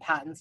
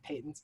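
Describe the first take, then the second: First: The word is said with an American pronunciation. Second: The word is said with an English pronunciation. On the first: "Americanized them as well and called them patents" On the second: "not patents"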